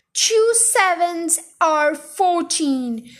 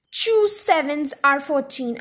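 First: Very slow, drawn-out bellow. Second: Slow repeat at ordinary pitch; restrained bellow. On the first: Headmistress drills the dangling boy, bellowing slowly. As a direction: drum in each word at half speed. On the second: Headmistress insists on the sum, restrained bellow. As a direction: insist firmly and slowly, without shouting. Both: A narrator's reading. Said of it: "Miss Trunchbull bellowed".

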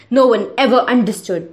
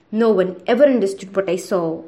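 First: Raised, desperate cry over the noise; mock scream. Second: Said in the usual way. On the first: A narrator's reading. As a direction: shout to be heard over the monster. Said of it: "the boy screamed over the horrible noise". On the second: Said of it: "the boy screamed".

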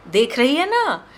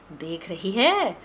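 First: Higher, louder pushing repeat; louder insistent repeat; pressing insistence. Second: Slow, drawn-out coaxing; slow persuading show-off. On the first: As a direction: push her to agree. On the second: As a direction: lay it out slowly to tempt her. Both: Acted. Showing off saris to vendor.

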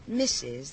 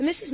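First: Lower, a sly questioning rise on "Missus"; mimicking his tone. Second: "Missus" lifted and pressed a bit louder; stressed Missus. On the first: Missus Kirk throws the detective's insinuating "Missus" back at him. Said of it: "The way you said". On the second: Shown as a demonstration. The widow explains to the detectives what "Missus" means, stressing it. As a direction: lean on "Missus" to make the point.

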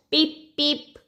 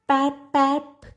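First: Higher, light chirped "peep, peep"; duckling peep. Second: Higher, odd honking "Pap, pap". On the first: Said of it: "not "peep, peep" like her other ducklings". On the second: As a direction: call "Pap, pap" like a clumsy chick. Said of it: "it said, not "peep, peep". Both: A narrator's reading.

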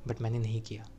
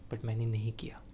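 First: Said in the usual way. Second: Breathy hushed whisper; soft whispered reassurance. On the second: Acted. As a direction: drop to a whisper. Varun reassures crying Riya.

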